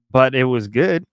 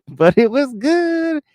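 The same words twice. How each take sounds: First: Said in the usual way. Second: Much higher, drawn-out GOOD; playful high voice. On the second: Pretend. Streamer excusing a broken diet, playful high voice. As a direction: squeak it out slowly, stretching GOOD.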